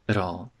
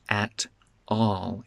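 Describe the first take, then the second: First: The T is said as a quick tap. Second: The T is said as a full, clear t. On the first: The speaker calls it right. "with a tap for the T" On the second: The speaker calls it wrong. "It's not"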